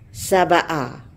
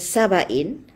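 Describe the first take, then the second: First: The word ends in a short 'a' vowel. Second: The word ends in an 'in' sound. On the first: It refers to a particular land or region. "kalau dibaca dengan saba'a, ha, dengan uh, fathah saba'a" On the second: It is the name of a tribe. "kalau dibaca dengan saba'in"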